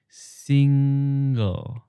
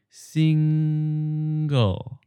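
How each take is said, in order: First: The ng sound is short before the second syllable. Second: The ng sound is held before the second syllable. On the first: "Now split it into two syllables" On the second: "hold it for a bit and then slide into the second syllable"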